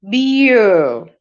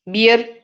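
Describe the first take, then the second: First: "Beer." said as bee-uh, no r; correct beer. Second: "Beer?" with a hard final r; mock wrong "Beer?" with the r sounded. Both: Shown as a demonstration.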